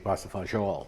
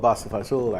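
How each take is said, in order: First: The dish name is said in a standard form. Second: The dish name is said in a casual form. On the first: This is the proper way to say it. "is the correct way to say it" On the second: This is how the speaker habitually says it. "I call it Bassa Fazool"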